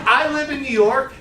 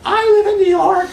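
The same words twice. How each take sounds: First: Said in the usual way. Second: High, loud, laughing mock voice; her voice. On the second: Imitating a colleague who boasts about New York, laughing and high. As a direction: squeal it through a laugh, half-hearted imitation. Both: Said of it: "I can't do her voice".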